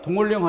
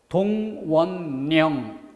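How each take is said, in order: First: The consonants merge into a double l sound. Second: The consonants merge into a double n sound. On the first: It sounds like an order issued in winter. The speaker calls it wrong. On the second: It means a mobilization order. The speaker calls it right.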